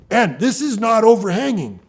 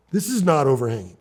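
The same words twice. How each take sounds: First: Higher pitch, "not" leaned on hard; emphatic denial. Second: Said in the usual way. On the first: Real, not acted. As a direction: insist that "this is not overhanging", punching "not". Repeats claim for emphasis.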